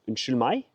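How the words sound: It sounds polite and requesting.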